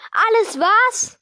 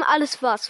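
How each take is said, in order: First: Loud, high, drawn-out outraged question; slow, booming echo of outrage; thundering. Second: Said in the usual way. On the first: A narrator's reading. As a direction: thunder it back in disbelief, stretched out. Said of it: "donnerte Hagrid". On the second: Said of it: "fragte Harry".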